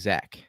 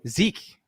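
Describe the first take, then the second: First: The name is said with a short a vowel. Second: The name is said with a long ee vowel. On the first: The speaker calls it right. "it's actually Zach" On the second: The speaker calls it wrong. "It's spelled Zek, but it's actually Zach"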